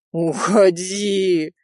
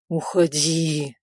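First: Very slow, drawn-out plea; pleading. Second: Slow, pleading inner plea; pleading to himself. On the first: Rizo silently pleading with Nadya to leave, slow. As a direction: stretch it out, begging. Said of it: "молил её Ризо". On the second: Rizo silently begging the woman to go away, slow pleading. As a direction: beg her silently, drawn out slow. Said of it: "молил он про себя". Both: A narrator's reading.

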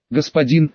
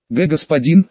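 First: Said in the usual way. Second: A brief stutter on the Г of "господин"; stammering. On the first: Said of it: "он закричал". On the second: A narrator's reading. Messenger nervously addressing the mage, stammering on "господин". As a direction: catch on the first sound of "господин". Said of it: "заикаясь, окликнул меня гонец".

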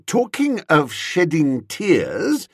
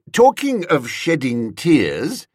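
First: Slow, higher, firm insistence. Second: Said in the usual way. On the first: A narrator's reading. Returning to the point with the woman, firm. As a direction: press the subject firmly, slowly. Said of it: "I said firmly".

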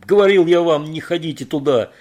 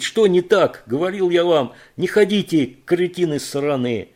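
First: Loud, high furious roar; roared at the fools; angry yell. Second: High, loud cursing yell; loud angry rant; furious shout. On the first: A narrator's reading. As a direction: bellow the told-you-so. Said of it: "заорал Кейт". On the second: Acted. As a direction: rage at the idiots. Кейт keeps yelling at them.

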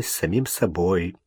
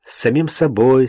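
First: Самим stressed, quiet and lower; soft echo hitting самим. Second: Собой lifted with a rising tune; stress on собой. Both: Shown as a demonstration.

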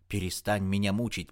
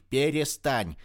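First: Said in the usual way. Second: Перестань split into separate loud syllables, пе-ре-стань; Перестань spaced out slowly and louder, higher. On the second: A narrator's reading. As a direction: hammer out Перестань one syllable at a time. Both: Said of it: "по слогам выговорила она".

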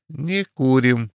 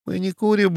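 First: Slower, НЕ курим with НЕ leaned on; stress on НЕ. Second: Said in the usual way. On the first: A narrator's reading. Small man refusing the Frenchman, slow firm НЕ курим. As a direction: press the word не, slow it down. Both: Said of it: "произнёс один помельче ростом".

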